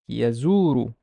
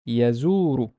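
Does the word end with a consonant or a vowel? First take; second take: vowel; vowel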